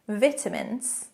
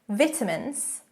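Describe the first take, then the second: First: It is pronounced the British way. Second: The same.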